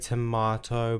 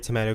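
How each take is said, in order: First: Tomato is said with a British accent. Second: Tomato is said with an American accent.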